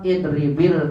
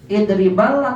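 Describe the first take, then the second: First: The word ends with a linking 'i' vowel. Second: The word ends with a linking 'a' vowel. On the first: The speaker calls it right. "Tetap idribil kalba" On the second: The speaker calls it wrong. "Idribal atau idribil?"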